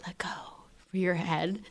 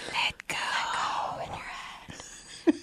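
First: Said in the usual way. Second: Imitating a whisper. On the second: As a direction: whisper it slowly like a teacher during a head assist. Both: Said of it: "and she'd just whisper".

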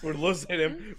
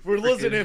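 First: Said in the usual way. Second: Louder, higher, laughing; louder laughing repeat. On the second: Real, not acted. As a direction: call it out laughing.

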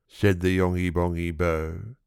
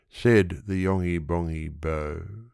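No difference in how they are said.

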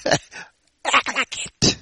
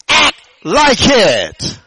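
First: Soft, slow, intense near-whisper; hushed exhortation. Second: High, slow, forceful exhortation; preacher's climactic command. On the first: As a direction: drop to a drawn-out, hushed command. Same charge repeated in hushed voice. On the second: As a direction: punch and stretch each word for the congregation. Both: Real, not acted.

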